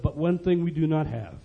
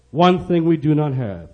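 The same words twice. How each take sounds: First: Soft, understated lead-in to a point; quiet admission. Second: "One thing we do not have" measured, at full voice; emphatic repeat. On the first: Finance minister confiding what is lacking, quiet. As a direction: hold it back, softly. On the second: Finance minister pressing what is lacking, "One thing we do not have" said emphatically. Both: Retold or imitated.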